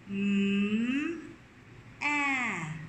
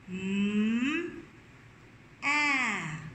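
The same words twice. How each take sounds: First: The two sounds are said apart, with a pause. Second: The two sounds are said apart, with a pause.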